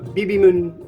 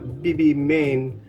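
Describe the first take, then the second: First: The final syllable sounds like 'mun'. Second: The final syllable sounds like 'main'. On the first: "it's not Bibimun" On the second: "it's not Bibimain"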